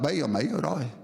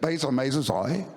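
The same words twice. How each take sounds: First: It is said in a southern Vietnamese accent. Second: It is said in a northern Vietnamese accent. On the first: "In the south" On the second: "what time is it in the north?"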